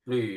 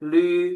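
First: It is said with the fourth Mandarin tone. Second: It is said with the first Mandarin tone. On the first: "หลีเสียงที่สี่" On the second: "ลีเสียงที่หนึ่ง"

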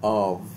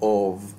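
First: The vowel is a full, open ah. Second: The vowel is a full, rounded o. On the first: "US strong फोनिम्स ... आव" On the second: "strong फोनिम्स ... upside down ए जो कि ओ की sound करता है"

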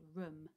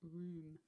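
First: The vowel is short, like in 'book'. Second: The vowel is long, like in 'moon'. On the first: "the double O grapheme making an uh sound" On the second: "instead of room"

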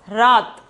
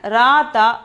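First: The word ends on the consonant, vowel dropped. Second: The word ends with a short vowel sounded. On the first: "but the sound of the word is rat" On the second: "we have to spell at rata"

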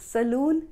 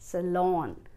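First: The second syllable sounds like 'loon'. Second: The second syllable sounds like 'lawn'. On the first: The speaker calls it wrong. "सलून नहीं" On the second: The speaker calls it right. "लून को पढ़ो लॉन"

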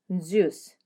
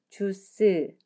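First: The front part is said strongly. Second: Two syllables are said with equal stress. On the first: The speaker calls it right. "juice 이렇게 발음해야 하는데" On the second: The speaker calls it wrong. "주스 하고 똑같은 강세로 이음절로 발음하면 한국식이죠"

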